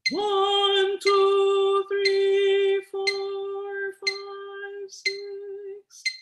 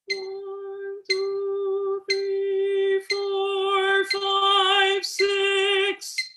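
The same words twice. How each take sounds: First: It starts loud and fades softer. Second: It starts soft and grows louder.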